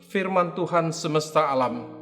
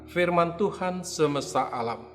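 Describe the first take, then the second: No difference in how they are said.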